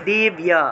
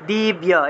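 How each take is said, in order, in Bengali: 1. শব্দটি 'bya' ধ্বনি দিয়ে শেষ হয়। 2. শব্দটি 'bya' ধ্বনি দিয়ে শেষ হয়।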